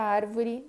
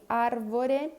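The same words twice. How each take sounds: First: Árvore ending in I; spoken form. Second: Árvore with a final E, slow; spelled form. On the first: Teacher says árvore the way it is spoken. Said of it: "pronuncia árvore". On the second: Teacher reads árvore as it is written. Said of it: "Se escreve árvore". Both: Shown as a demonstration.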